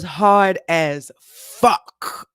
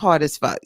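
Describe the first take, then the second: First: The last word is drawn out and heavily emphasized. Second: The last word is said lightly without strong emphasis. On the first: The day was extremely hard. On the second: The day was hard, but less so.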